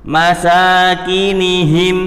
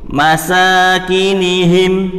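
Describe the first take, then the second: Both takes have the same delivery.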